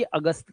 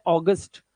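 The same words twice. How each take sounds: First: अगस्त said Hindi-style as uh-GUST; quieter, lower Hindi अगस्त; Hindi pronunciation. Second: अगस्त said English-style as AW-gust; teacher's model of English August; English pronunciation. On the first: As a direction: open अगस्त on a short "uh", soft t. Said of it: "और अगर हिंदी बोल रहे हो". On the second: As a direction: open अगस्त on a round "aw". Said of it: "तो इसे ओ बोलना है". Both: Shown as a demonstration.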